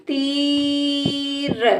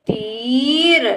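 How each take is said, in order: First: तीर with long level ती, then र; sounded out. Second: तीर joined, shorter rising ee; blended word. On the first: Teacher sounds out the word for a child, stretched. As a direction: stretch तीर apart slowly. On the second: Teacher blends the word for a child, joined up. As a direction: run तीर into one word. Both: Shown as a demonstration. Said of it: "इस तरह से बेटा हम शब्दों को".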